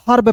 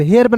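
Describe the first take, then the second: First: हर्ब with the e dropped to a plain a; open vowel in हर्ब. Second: The misreading हेर्ब, e before rolled r; हेर्ब with spelling-style e; e vowel in हेर्ब. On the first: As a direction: say हर्ब as harb, no e sound. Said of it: "हर्ब पढ़ेंगे". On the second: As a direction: say हेर्ब as herb with a clear e. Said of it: "हेर्ब नहीं पढ़ेंगे". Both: Shown as a demonstration.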